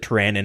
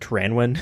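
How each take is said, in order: First: The name is said without a W sound. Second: The name is said with a W sound. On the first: Another player says it this way. "he pronounces it" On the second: The speaker has always said it this way. "I've always pronounced it Tyranwen with the W"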